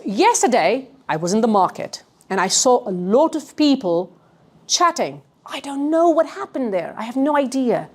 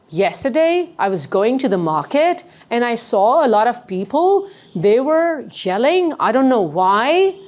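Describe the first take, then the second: First: "people", "chatting" and "idea" falling at phrase ends; assured statements, stepping down on "chatting" and "idea"; downward inflection. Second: "Yesterday", "people", "yelling", "why" each rising like questions; upward inflection. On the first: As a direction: tell it as fact, "idea" dropping to a close. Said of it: "Do you see the difference?". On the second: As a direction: tell it as if asking, lifting "why" at the end. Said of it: "Is it going up?". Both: Shown as a demonstration.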